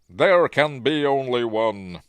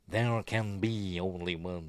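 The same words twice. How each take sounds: First: It is said in a plain, natural voice. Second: It is said in a strange, put-on voice.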